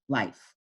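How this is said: The pitch stays level through the word. "regularly the word is life"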